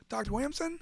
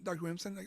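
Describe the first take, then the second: First: Stunned disbelief. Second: Said in the usual way. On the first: Retold or imitated. Disbelief at the doctor's name.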